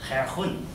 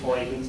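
First: The name is pronounced the Dutch way. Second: The name is pronounced the English way. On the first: "I'm going to do my best pronunciation... those Dutchmen were saying" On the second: "I'm going to use Huygens because I think that's pretty good"

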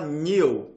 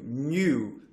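First: The vowel follows the n without a glide. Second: A y-glide comes before the vowel. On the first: The speaker calls it wrong. "Muita gente fala new" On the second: The speaker calls it right. "Ele é mais um you"

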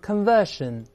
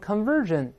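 First: The word has a British pronunciation. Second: The word has an American pronunciation. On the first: "英国人读成conversion 都行" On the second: "美国人读成conversion"

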